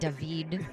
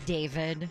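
First: The name is said with a fancy, foreign-sounding pronunciation. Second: The name is said in its ordinary way. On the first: The bearer chooses to sound more sophisticated. "but you pronounce it David" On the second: This is the name given at birth. "your real name's David"

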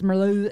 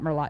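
First: The name is pronounced in a French way. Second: The name is pronounced in an English way. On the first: The speaker calls it right. "It's Merlot. It's a beautiful French name" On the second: The speaker calls it wrong. "Not Merlot"

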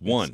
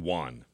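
First: The word does not sound like w plus 'on'. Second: The word sounds like a w plus 'on'. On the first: The speaker calls it right. "It's pronounced one" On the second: The speaker calls it wrong. "It's like you're putting the W before the word on"

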